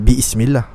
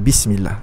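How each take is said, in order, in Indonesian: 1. Hamzah memisahkan bi dan ism. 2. Bi langsung menyambung ke smillah tanpa hentian. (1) "Kita tidak kata Bismillah" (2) "tapi kita kata Bismillah"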